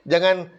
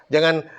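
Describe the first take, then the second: Both takes have the same delivery.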